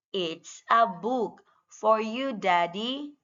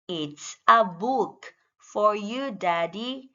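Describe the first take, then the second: No difference in how they are said.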